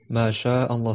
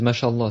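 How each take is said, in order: First: A glottal stop comes before 'Allah'. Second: The words run together with no glottal stop. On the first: The speaker calls it right. "c'est ma sha Allah" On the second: The speaker calls it wrong. "On ne dit pas mashallah parce que tu auras enlevé la hamza"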